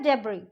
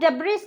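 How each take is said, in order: First: The final s sound is silent. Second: The final s sound is pronounced. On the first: The speaker calls it right. "ये होता है डेब्री" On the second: The speaker calls it wrong. "इसको हम डेब्रिस नहीं बोलेंगे"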